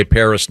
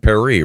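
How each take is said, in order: First: Said in the usual way. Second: Paris as "pa-REE", silent S; French pronunciation. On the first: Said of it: "The same way we say Paris". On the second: Shown as a demonstration. Host arguing against local names, Paris said the French "pa-REE". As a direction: stress the end of Paris, "pair-EE". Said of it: "not Paris".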